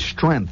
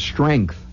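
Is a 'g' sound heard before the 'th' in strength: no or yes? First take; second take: no; yes. First: It is said as strenth, without a g sound. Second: It is said with a g sound before th. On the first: The speaker calls it wrong. "Numbers of people say strength. ... It's S-T-R-E-N-T-H" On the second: The speaker calls it right. "Instead of strength"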